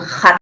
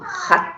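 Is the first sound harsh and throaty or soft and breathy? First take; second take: harsh; soft. First: It starts with a harsh, throaty scraping sound. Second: It starts with a soft puff of breath. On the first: The speaker calls it wrong. "no es un hat con J" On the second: The speaker calls it right. "sino un hat con el aire aspirado"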